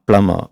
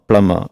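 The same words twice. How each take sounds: Both takes have the same delivery.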